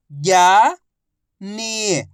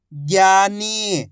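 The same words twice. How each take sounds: First: ज्ञानी split as ज्ञा, long pause, नी; syllable by syllable. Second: ज्ञानी joined, both vowels held; blended word. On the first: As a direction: sound out ज्ञानी slowly, ज्ञा rising, नी falling. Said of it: "एक अक्षर की पहचान करो, उनका उच्चारण करो". (ज्ञानी को अक्षर-अक्षर अलग बोलें) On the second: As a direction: blend ज्ञा and नी into ज्ञानी without a gap. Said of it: "आपस में मिला के पढ़ दो". (ज्ञानी को मिलाकर बोलें) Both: Shown as a demonstration.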